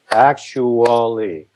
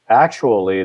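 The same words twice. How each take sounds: First: Actually said slowly with the right stress, falling at the end; slow, carefully stressed actually. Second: Said in the usual way. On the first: Shown as a demonstration. Songwriter showing how actually is normally stressed, slow. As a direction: stretch out actually, stress clear and even. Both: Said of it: "the accents are on".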